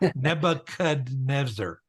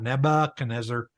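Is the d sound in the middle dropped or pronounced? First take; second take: pronounced; dropped. First: The middle d sound is clearly pronounced. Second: The middle d sound is left out. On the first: The speaker calls it right. "because there's a D in there" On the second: The speaker calls it wrong. "it's not"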